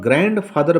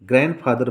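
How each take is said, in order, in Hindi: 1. d की ध्वनि साफ़ बोली जाती है। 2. d की ध्वनि नहीं बोली जाती। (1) "अगर इसको आप ग्रैंड फादर बोलते हैं तो यह गलत माना जाएगा" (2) "क्योंकि डी साइलेंट होता है"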